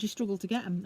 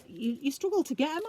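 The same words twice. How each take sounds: First: Falling statement tune, firm on get; "You struggle to get 'em." said flat as a plain statement, falling at the end; stated as fact. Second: Rising question tune on struggle to get 'em; "You, you struggle to get 'em?" with a rising, asking tone at the end; asked as a question. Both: Retold or imitated. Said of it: "I should, I said".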